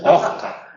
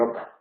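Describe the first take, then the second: First: The s sounds like a harsh throaty j. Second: The s is dropped completely. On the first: "Se llega a confundir con la J" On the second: "En otros dialectos se elimina totalmente"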